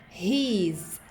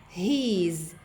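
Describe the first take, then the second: Both takes have the same delivery.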